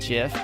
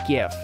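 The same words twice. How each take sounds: First: It begins with a soft J-like sound. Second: It begins with a hard G sound. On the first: It marks the speaker as a tech insider. The speaker calls it wrong. "they pronounce it GIF pretty much on purpose, so they know if you're like the in crowd" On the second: It matches the word gift. The speaker calls it right. "GIF is like one letter T away from being gift, so of course it's GIF"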